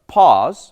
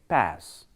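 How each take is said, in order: First: It has a long, open 'ah' vowel. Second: It has a short, flat 'a' vowel. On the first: "In uh, British pronunciation, we use it at as a pause" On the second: "but in American they say pass"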